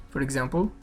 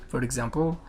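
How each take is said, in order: Both takes have the same delivery.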